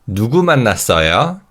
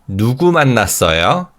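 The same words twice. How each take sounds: Both takes have the same delivery.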